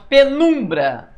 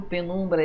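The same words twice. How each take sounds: First: Penumbra slow and loud, leaning on NUM; raised, emphatic pe-NUM-bra in Penumbra; stress on NUM. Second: Said in the usual way. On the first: Shown as a demonstration. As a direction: stretch the middle syllable of Penumbra. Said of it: "O nu é o mais forte". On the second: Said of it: "tudo certo".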